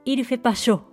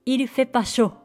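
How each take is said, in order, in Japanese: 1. 否定の'ne'は省略されます。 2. 否定の'ne'は省略されます。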